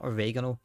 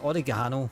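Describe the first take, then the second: First: The word is said the American way. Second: The word is said the British way. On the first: The speaker calls it wrong. "it's not oregano" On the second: The speaker calls it right. "It's called it's oregano"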